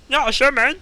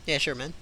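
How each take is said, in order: First: Higher, louder squeaky elf. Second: Said in the usual way. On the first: Shown as a demonstration. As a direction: pitch it up into elf. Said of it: "shouting through a pillow". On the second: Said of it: "repeat in elf voice".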